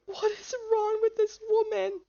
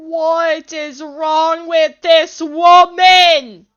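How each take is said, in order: First: Small, high-pitched plaintive voice; high bewildered whine. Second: Slow, very loud, drawn-out shout; exasperated shout. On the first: Player bewildered by this woman, high whine. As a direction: squeak it out helplessly, without shouting. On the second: Player exasperated by this woman, slow shout. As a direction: bellow each word slowly in disbelief. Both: Real, not acted.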